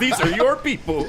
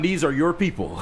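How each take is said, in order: First: It is said in an imitated character voice. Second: It is said in the speaker's ordinary voice.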